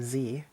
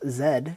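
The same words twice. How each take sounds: First: The letter name is said the American way. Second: The letter name is said the Canadian way. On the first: The speaker calls it right. "We say Z, like normal human beings" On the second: The speaker calls it wrong. "for you Canadians or Europeans"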